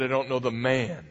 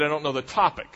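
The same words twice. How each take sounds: First: "man" picked out as the contrasting word; stress on man. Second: "topic" picked out as the contrasting word; stress on topic. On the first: Preacher contrasting Peter's second denial, stress on "man". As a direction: land the point on "man". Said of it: "The second time he said". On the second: Preacher contrasting Peter's first denial, stress on "topic". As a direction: land the point on "topic". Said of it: "The first time he said". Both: Shown as a demonstration.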